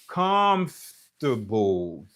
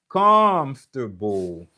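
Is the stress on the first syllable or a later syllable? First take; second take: first syllable; first syllable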